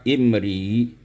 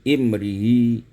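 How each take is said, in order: No difference in how they are said.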